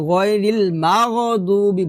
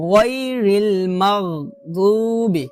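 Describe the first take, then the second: First: গায়রিল মাগদুবি with "ma-go-dubi"; everyday, unrecited মাগদুবি; common mistake. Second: Slow গায়রিল মাগদুবি with throaty gh; drawn-out recitation of মাগদুবি; correct heavy ghain. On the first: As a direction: add a loose vowel after মাগ. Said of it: "বড় একটা ভুল করি". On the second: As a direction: round গায়, close মাগ without an added vowel. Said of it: "গই বলতে হবে". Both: Shown as a demonstration.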